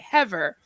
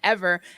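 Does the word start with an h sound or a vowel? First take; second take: h sound; vowel. First: The word starts with an added h sound. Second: The word starts directly with a vowel sound. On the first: The speaker calls it wrong. "she'd say "hever."" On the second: The speaker calls it right. "she wouldn't say the H until she wasn't supposed to say it"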